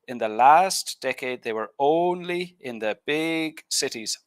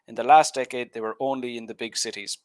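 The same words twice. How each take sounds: First: Stressed words rise steeply in pitch and are stretched. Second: Stressed words have moderate pitch and normal length. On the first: The speaker calls it wrong. "your intonation goes up way too much and you stretch out the word" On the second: The speaker calls it right. "you stressed last, only, and big, as you should"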